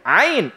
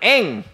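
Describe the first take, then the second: First: It is said with the Arabic pronunciation. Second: It is said with a Javanese village accent. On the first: The speaker calls it right. "Nggak bisa ngomong ain" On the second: The speaker calls it wrong. "eng katanya"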